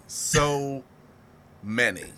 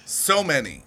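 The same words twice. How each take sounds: First: A dying echo of So many; drawn-out fade. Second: Said in the usual way. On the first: Shown as a demonstration. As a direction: lower and softer, with a pause before many. Repeating a phrase for effect.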